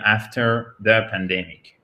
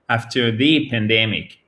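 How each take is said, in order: First: The word 'the' is said reduced, like 'thuh'. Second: The word 'the' is said fully, like 'thee'. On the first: It is a neutral mention. "si vous prononcez de manière neutre" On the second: It points to one specific, huge thing. "pour mettre l'emphase ... on va dire the"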